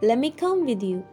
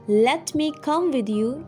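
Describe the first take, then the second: First: Let and me blend into one word, lemme. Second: Let and me are said as two full words. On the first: "you'll say" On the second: "instead of saying"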